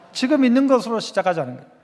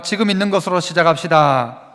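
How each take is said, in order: First: Said in the usual way. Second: Measured, declaimed call to repeat; slogan for repeating. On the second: Shown as a demonstration. Preacher leading congregation in repeating the point, measured call. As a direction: lead the room in saying it together. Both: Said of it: "또 따라 해봅시다".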